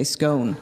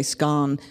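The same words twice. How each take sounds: First: "scone" with a long O, rhyming with bone. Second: "scone" with a short open O, rhyming with gone. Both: Shown as a demonstration. Contrasts her children's two pronunciations.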